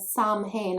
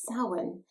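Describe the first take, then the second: First: It is said with an anglicized, spelling-based pronunciation. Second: It is said with the native Irish pronunciation. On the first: This is how others say it. The speaker calls it wrong. "You keep mispronouncing it" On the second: This is how the Irish say it. The speaker calls it right. "no, no, it's Samhain"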